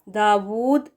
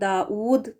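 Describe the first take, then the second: First: The middle consonant is a rounded w sound. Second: A glottal stop comes before the u vowel. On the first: The speaker calls it right. "डब्ल्यू के साथ है वो correct pronunciation है" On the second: The speaker calls it wrong. "हमज़ा पेश लगाकर पढ़ना इसको दाऊद करके ये भी गलत है"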